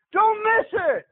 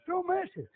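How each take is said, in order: First: Louder, higher urgent plea; preacher's loud urging; loud warning. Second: Softer, quiet echo of the plea; softly pressing the point; soft warning. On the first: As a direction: call it out to the congregation. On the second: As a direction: drop to a hush. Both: Shown as a demonstration.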